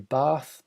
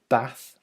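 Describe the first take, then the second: First: It has a long southern 'ar' vowel. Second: It has a short northern 'a' vowel. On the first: The speaker calls it wrong. "I don't say Bath because there's no R in it" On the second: The speaker calls it right. "I am from the north, and I do say Bath"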